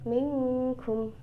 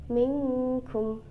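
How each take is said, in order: Both takes have the same delivery.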